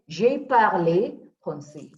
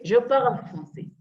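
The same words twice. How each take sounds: First: Slow "J'ai parlé", said "zhay par-lay"; past-tense pronunciation. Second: "Je parle" said "zhuh parl"; present-tense pronunciation. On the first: Teacher modelling the past tense, parlé ending in "ay". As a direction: draw out parlé with a final "ay". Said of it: "if you wanted to say that I spoke French". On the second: Teacher modelling the present tense, parle as one syllable. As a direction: parle ends on the L, silent E. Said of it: "you don't have an accent". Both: Shown as a demonstration.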